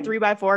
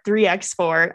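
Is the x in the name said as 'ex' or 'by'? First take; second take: by; ex. First: The x is not pronounced as 'ex'. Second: The x is pronounced as 'ex'. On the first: The speaker calls it wrong. "I always like to say 3x4 because it just seems easy" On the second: The speaker calls it right. "Ex-boyfriend, ex-girlfriend"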